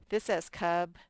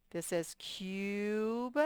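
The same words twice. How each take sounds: First: "cub" with a short u, as in "cut"; short u sound. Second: "cube" stretched out as "kyoob" with a long u; long u sound. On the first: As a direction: clip the vowel in "cub" short. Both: Shown as a demonstration.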